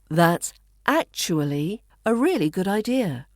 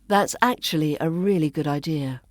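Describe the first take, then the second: First: Actually is said slowly with every syllable. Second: Actually is said fast with syllables squeezed. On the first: "the first, which is the slower, fuller pronunciation" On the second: "the fast, more natural-sounding pronunciation in the second version"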